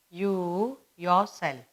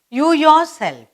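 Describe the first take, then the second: First: You yourself, spoken slowly and softer for writing down; slow dictation. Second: You said much higher and louder, you yourself; emphasis on you. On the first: Teacher dictating the example for pupils to copy, slow and soft. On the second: Teacher stressing the example to the class, you punched high and loud. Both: Shown as a demonstration. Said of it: "The next we have is".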